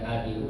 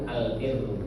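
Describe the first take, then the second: First: The r sound is short and single. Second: The r sound is held long and doubled. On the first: The speaker calls it wrong. "Bukan al biru ya Bu" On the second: The speaker calls it right.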